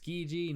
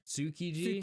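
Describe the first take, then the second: First: The first vowel is dropped, giving 'Skiji'. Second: The first vowel is fully voiced, giving 'Tsukiji'. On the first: Locals understand where you want to go. The speaker calls it right. "Skiji is pronounced Skiji" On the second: Locals do not understand the place name. The speaker calls it wrong. "not Tsukiji"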